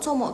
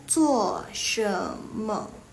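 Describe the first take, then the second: First: It is said as a short clipped contraction. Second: It is said as the full three syllables. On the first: This is the colloquial Malaysian way to ask what you're doing. "disingkat sama orang Malaysia" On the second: This is the standard full way to ask what you're doing. "Kalau dipanjangin"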